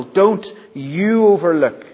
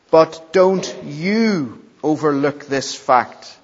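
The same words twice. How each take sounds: First: You punched higher and louder; emphatic you, as in the original Greek; stress on YOU. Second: Slow, weight on don't, you left light; slow plain first reading of the verse. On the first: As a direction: hit the word you hard. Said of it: "it's emphatic in the original". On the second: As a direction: read it slow, landing on don't. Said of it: "but it's emphatic in the original". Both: Shown as a demonstration.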